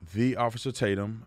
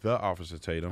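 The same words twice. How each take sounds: First: The first word sounds like the letter D. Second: The first word is clearly pronounced 'the'. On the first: The speaker calls it wrong. "people think I say D as in David" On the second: The speaker calls it right. "Maybe I should say it properly"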